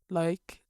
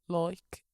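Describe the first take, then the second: First: Said in a regional accent. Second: The same.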